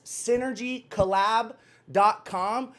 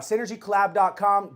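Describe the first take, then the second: First: Slow dictation. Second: Said in the usual way. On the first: Real, not acted. Dictating a web address to George for the comments, slow dictation. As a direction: address spelled out word by word.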